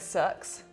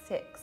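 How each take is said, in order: First: It is said in a New Zealand accent. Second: It is said in a British accent.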